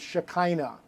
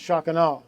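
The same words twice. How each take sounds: First: The word is said with an American-style pronunciation. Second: The word is said with its original, non-American pronunciation. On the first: The speaker calls it wrong. "The American bastardization of it is Shekinah" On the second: The speaker calls it right. "but it's actually pronounced Shekinah"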